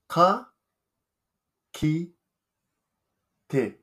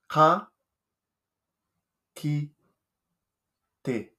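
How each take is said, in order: No difference in how they are said.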